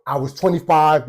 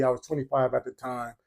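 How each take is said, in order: First: Said in the usual way. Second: Softer, dropped-down repeat of the age; quieter repeat. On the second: Shown as a demonstration. Telling the audience his age, softer. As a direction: let it fall away softly.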